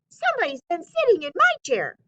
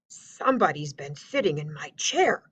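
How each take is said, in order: First: It is said in a high squeaky voice. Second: It is said in a deep growling voice.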